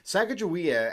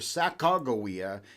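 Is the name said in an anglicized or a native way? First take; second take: anglicized; native. First: The name is said the anglicized English way. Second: The name is said closer to the native way. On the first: The speaker calls it wrong. "the more English pronunciation of her name" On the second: The speaker calls it right. "the more appropriate pronunciation"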